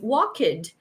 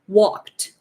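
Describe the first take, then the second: First: An extra vowel syllable is added before the final sound. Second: The ending is a single consonant with no vowel. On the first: The speaker calls it wrong. "Instead of pronouncing walk it" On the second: The speaker calls it right. "that's what you have"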